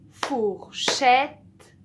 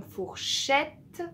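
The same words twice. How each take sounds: First: "Fourchette" split loudly into four-chette; syllable by syllable. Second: Said in the usual way. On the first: Shown as a demonstration. Teacher points out the final sound, "Fourchette" in separated syllables. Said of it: "c'est à la fin".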